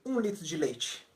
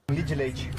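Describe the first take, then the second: First: It is said slowly in a standard Brazilian accent. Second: It is said fast in a mineiro accent, run together.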